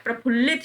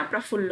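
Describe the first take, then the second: First: प्रफुल्लित ending "-lit"; "pra-phul-lit" for प्रफुल्लित; wrong ending. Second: प्रफुल्ल ending on "ll"; "pra-phull" for प्रफुल्ल; correct ending. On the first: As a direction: add "-it" to the end of प्रफुल्लित. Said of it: "प्रफुल्लित शब्द नहीं होता". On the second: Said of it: "प्रफुल्ल होता है". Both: Shown as a demonstration.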